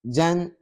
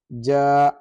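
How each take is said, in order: First: The syllable ends with an n sound. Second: The syllable ends on a long open vowel. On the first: The recitation continues without stopping. "The first one will be serving as what? As recitation mode" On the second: The reciter pauses or stops here. "the second will ... be representing the uh, pausing mode"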